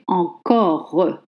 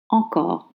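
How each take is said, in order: First: An extra vowel is sounded after the final r. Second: The word ends on the r sound with no vowel. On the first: The speaker calls it wrong. "You don't say encore" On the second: The speaker calls it right. "You voice the R sound and you don't trace the E"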